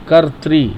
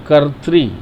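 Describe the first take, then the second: Both takes have the same delivery.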